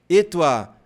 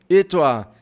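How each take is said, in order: No difference in how they are said.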